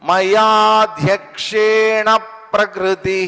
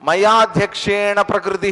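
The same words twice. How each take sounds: First: The 'pra' sound is pressed firmly and clearly. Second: The 'pra' sound is said lightly, without pressure. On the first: The speaker calls it right. "ఆ ప్ర అనే sound కొంచెం ఒత్తి పలకాలి" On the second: The speaker calls it wrong. "అనకూడదు"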